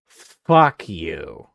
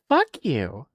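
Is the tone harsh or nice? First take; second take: harsh; nice. First: It is said in a harsh, hostile tone. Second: It is said in a sweet, gentle tone.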